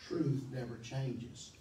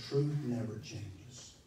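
No difference in how they are said.

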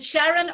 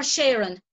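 First: Sharon said SHARR-un, short flat 'a' as in 'carry'; first vowel of Sharon as in 'cat'. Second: Sharon said SHAIR-un, 'air' in the first syllable; first vowel of Sharon as in 'share'; Sharon with AIR sound. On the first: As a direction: say Sharon to rhyme with 'Darren'. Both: Shown as a demonstration. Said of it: "is it Sharon or Sharon".

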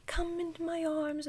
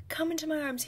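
First: High coaxing voice; sing-song coaxing. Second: Coaxing whisper. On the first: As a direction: coax the hamster sweetly. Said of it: "It was like". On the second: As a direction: whisper sweetly to a pet. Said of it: "I was like". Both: Retold or imitated.

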